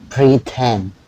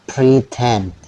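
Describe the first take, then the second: The two takes are said the same way.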